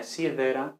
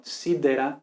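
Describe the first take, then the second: First: "sidera" with a lisped D like English "this"; tongue between the teeth for the D of "sidera"; soft D. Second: "sidera" with a plosive D; firm D in "sidera"; hard stopped D. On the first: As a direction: loose fricative D in "sidera". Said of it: "entonces, no". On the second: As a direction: keep the tongue behind the teeth in "sidera". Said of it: "que no se vea la lengua entre los dientes". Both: Shown as a demonstration.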